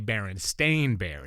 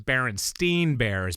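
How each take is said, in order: First: The name ends with a 'stain' sound. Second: The name ends with a 'stine' sound. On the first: This is the real name. The speaker calls it right. "it's really Berenstain Bears because we were all saying it wrong" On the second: This is how people remember the name. The speaker calls it wrong. "people think it was Berenstein Bears"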